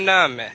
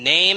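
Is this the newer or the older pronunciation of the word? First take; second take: older; newer. First: The word has its older, pre-shift vowel. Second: The word has its newer, shifted vowel. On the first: An older countryside speaker is talking. "you might have had the grandfather saying" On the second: A younger speaker is talking. "the kid would be like"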